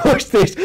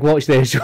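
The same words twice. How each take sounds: First: Laughs it out much higher and louder; can't hold it together on the repeat; a giggly, high-pitched echo; laughing high repeat. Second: Said in the usual way. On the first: Real, not acted.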